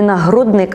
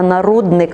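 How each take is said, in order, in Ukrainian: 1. У слові є звук h після 'na'. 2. У слові немає звуку h після 'na'. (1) "Не нагрудник" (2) "а нарудник. У нас букви Г нема"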